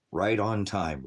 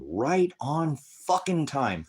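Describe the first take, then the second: First: Said in the usual way. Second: RIGHT on fucking time, high and drawn out slowly; stress on RIGHT. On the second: Real, not acted. Streamer to chat, RIGHT slow and high. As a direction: lean hard on RIGHT and slow the whole line.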